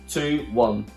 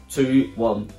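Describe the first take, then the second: Both takes have the same delivery.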